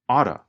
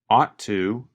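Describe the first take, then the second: First: The T sound is reduced to a quick flap. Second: The T sound is clearly pronounced. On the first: "the pronunciation changes when we talk faster" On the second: "You can hear him pronounce the letter T"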